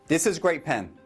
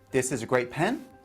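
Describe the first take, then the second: First: The voice falls at the end. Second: The voice rises at the end. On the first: It sounds certain. The speaker calls it right. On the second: It sounds uncertain. The speaker calls it wrong.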